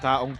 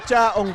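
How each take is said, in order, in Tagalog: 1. Nagsisimula ang salita sa tunog na k. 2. Nagsisimula ang salita sa tunog na ch. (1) "Kaong tuloy. Kaong kasi, di ba yun yung kinakain" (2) "chaong pala"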